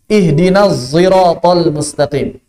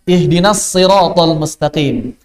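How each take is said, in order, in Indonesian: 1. Huruf s pada sirat itu bercampur dengan z. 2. Huruf s pada sirat itu tebal dan berat. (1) "shad dicampur sama zai" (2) "Ternyata ada yang baca dengan shad"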